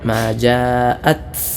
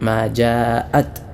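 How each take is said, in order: First: The final t has a strong burst of air. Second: The final t has only a light puff of air. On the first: The speaker calls it wrong. "സുക്കൂനുള്ള തായിൽ ശക്തമായ കാറ്റോടുകൂടെ" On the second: The speaker calls it right. "അല്പം കാറ്റ് മാത്രമേ ആവശ്യമുള്ളൂ"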